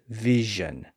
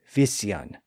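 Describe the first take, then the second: First: The middle consonant is a buzzing zh sound. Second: The middle consonant is a hissing s sound. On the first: This is the later modern pronunciation. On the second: This is the original older pronunciation.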